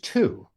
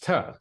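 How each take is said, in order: First: The word has a full, clear vowel. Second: The word has a short, weak vowel. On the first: "which is two" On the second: "pronounced tuh"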